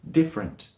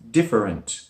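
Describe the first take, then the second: First: The word has two syllables, middle vowel dropped. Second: The word has three syllables as spelled. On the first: "it's mostly spoken like different" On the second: "not three, as it looks different"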